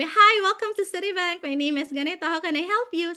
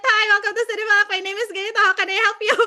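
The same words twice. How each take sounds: First: Lightly voiced call center spiel, routine and even; a hint of a practised agent script; polite agent greeting. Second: Higher, louder, fast agent greeting with a laugh breaking through; flustered repeat of the spiel. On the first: (simpleng boses ng ahente sa call center) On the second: Retold or imitated. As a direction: rush the script again after waking up, half laughing. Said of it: "sabi ko ulit". (nagmamadaling spiel na mas mataas at malakas, may tawa)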